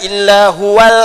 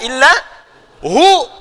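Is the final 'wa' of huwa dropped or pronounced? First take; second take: pronounced; dropped. First: The 'wa' is sounded, linked into the next word. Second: The word ends at 'hu' with no 'wa'. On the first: The reciter continues without stopping. "Kalau mau baca huwa, teruskan wasal" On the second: The reciter stops here. "maka wakaf di situ, wa-nya enggak bunyi"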